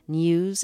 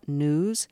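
First: A 'y' sound comes before the vowel. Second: No 'y' sound comes before the vowel. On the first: The speaker calls it right. "Could Terry Gross be taught to pronounce N-E-W-S" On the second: The speaker calls it wrong. "instead of news? She doesn't say foo for few"

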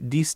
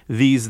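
First: It begins with a d sound. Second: It begins with a th sound. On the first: "they're more likely to say dis" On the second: "instead of saying these"

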